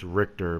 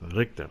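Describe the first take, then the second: First: The name is said plainly without extra force. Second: The name is said with extra emphatic force. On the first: "I mean it's Richter" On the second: "I like saying it with that little emphasis"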